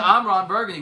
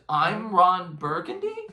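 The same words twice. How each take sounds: First: The voice falls at the end, like a statement. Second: The voice rises at the end, like a question. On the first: It is a plain introduction. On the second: It sounds unsure of the name.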